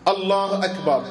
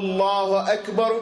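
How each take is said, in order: First: It is set apart by pauses on both sides. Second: It runs straight into the words around it. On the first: The opening takbir stands alone, unlinked to other words. "مقطوعة عما قبلها ومقطوعة عما بعدها" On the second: The opening takbir is joined to the words around it. "هذا شبكها باللي قبلها وصلها وباللي بعدها"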